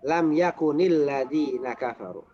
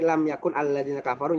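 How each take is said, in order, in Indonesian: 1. Yakun mendapat vokal i yang menyambung ke kata berikutnya. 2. Yakun berakhir dengan n tanpa vokal tambahan. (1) "nyambung jadi"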